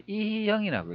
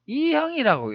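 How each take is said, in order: First: 이형 stretched with an extra 히 between 이 and 형; alternative reading. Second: 이형 run together as two syllables, pitched higher; trial reading. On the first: Presenter asking viewers how to read it, stretched alternative reading. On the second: Presenter asking viewers how to read it, joined trial reading. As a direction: try 이형 as one joined name, raised pitch. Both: Shown as a demonstration. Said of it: "읽어야 될까요".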